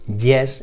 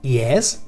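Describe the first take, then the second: First: It starts with a hard, buzzy consonant sound. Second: It starts with a soft ee-like glide. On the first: The speaker calls it wrong. "las solemos pronunciar como Y en español" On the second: The speaker calls it right. "se pronuncia yes"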